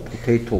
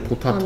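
First: The middle vowel is said as 'ay'. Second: The middle vowel is said as 'ah'. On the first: It is the ordinary way to say the word. "그냥 A가 아가 아니고 A일 뿐" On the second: It helps recall the spelling letter by letter. "내가 이제 포타토라 그랬잖아. 포, 타, 토네"

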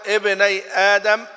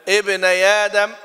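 No difference in how they are said.

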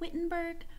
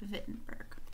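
First: The first sound is an English W. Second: The first sound is a V. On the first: "it looks like Wittenberg" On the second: "they pronounce the W like a V, so it's pronounced Wittenberg"

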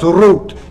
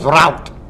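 First: It is pronounced the same as the word root. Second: It is pronounced differently from the word root. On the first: The speaker calls it wrong. "No decimos root" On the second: The speaker calls it right. "En inglés decimos route"

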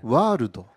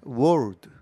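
First: It is said with a Japanese accent, extra vowels. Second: It is said with a native-like English accent. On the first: "일본 사람들이 이거 할 때는 와르도 이렇게 해요" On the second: "이게 굉장히 그 어, 대표적인 발음이잖아요"

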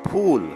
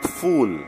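First: The word begins with an aspirated 'ph' sound. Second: The word begins with an 'f' sound. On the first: It means flower. The speaker calls it right. "we say phool, flower" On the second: It means stupid. The speaker calls it wrong. "not fool, not stupid"

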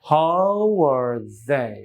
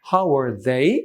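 First: The voice falls at the end. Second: The voice rises at the end. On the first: The speaker calls it right. "যেহেতু falling" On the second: The speaker calls it wrong. "যদি rising হতো এমন শুনতাম"

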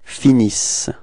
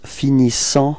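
First: The word ends on the s sound, ending silent. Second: The final nasal ending is pronounced aloud. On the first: The speaker calls it right. "you don't pronounce them, so it's finis" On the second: The speaker calls it wrong. "a quite common mistake for this third person of the plural that the students pronounce finissant"

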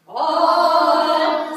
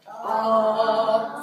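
First: It is said at a high pitch. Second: It is said at a low pitch.

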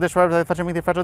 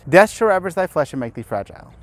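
First: It is spoken very quickly and hard to hear. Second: It is spoken at a normal, steady pace. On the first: "Say that fast 3 times" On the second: "Listen to the incant"

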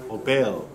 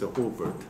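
First: The name is said with a French pronunciation. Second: The name is said with an English pronunciation. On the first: "So in Francais" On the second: "But the English was"

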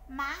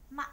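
First: The syllable has a rising sắc tone. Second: The syllable has a high, short ngã tone. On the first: "Dấu sắc thì khi mà chúng ta nói dấu sắc thì cái cổ của chúng ta phải dướn lên" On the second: "Dấu ngã cao và ngắn"

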